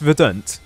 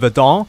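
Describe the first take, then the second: First: The word is said with an English pronunciation. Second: The word is said with a French-sounding pronunciation. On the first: The speaker calls it right. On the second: The speaker calls it wrong.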